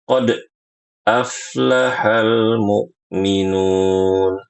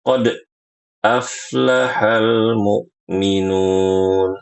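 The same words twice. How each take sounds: First: The bounce on the d sound is abruptly cut off. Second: The same.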